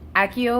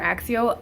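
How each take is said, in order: First: The middle consonant is a plain k sound. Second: The middle consonant is a ks sound. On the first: "in the book it's Accio" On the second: "it's like an X pronunciation"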